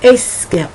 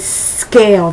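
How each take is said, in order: First: A short eh vowel comes before the s. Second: The word begins directly with the s sound. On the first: The speaker calls it wrong. "they would say a scale" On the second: The speaker calls it right. "my students wouldn't say scale"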